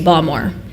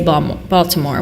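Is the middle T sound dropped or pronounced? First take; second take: dropped; pronounced. First: The middle T sound is dropped entirely. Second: The middle T sound is clearly pronounced. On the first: It marks the speaker as a local. The speaker calls it right. "you say Balmore" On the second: It marks the speaker as a tourist. The speaker calls it wrong. "you don't say Baltimore with a T"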